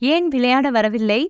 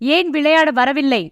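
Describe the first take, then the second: First: It is said softly, with a curious questioning tone. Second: It is said loudly, with an irritated, annoyed tone. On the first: The asker simply wants to know the reason. "முதல் தொனி குறைவாகவும் கேள்விக்குறியாகவும்" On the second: The asker is annoyed at the refusal. "இரண்டாவது தொனி அதிகமாகவும் எரிச்சலுடனும்"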